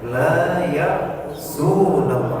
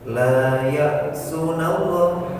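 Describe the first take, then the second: First: The vowel in the middle syllable is long. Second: The vowel in the middle syllable is short. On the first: The speaker calls it right. "Harusnya la ya'sunallah, ada wawunya" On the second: The speaker calls it wrong. "Kan salah itu"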